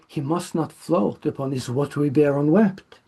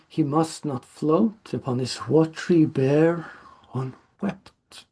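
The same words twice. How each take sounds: First: Bear is clipped and runs straight into unwept. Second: Bear is drawn out before a break before unwept. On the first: The rhyme with tear is lost. The speaker calls it wrong. "in uh, our modern day pronunciation, we can't just go" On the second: The rhyme with tear is kept. The speaker calls it right. "lingering a bit on it because it's a rhyme word"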